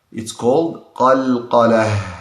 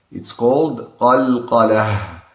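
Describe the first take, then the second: No difference in how they are said.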